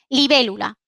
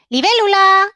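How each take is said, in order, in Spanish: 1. Se dice con una entonación neutra de afirmación. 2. Se dice con una entonación de llamada.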